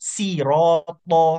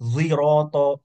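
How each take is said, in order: First: The first sound is a light plain s. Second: The first sound is a z-like sound. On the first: "dia baca pakai sin" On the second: "dia antara antara huruf vo ya dengan zai"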